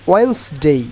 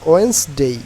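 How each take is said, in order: Both takes have the same delivery.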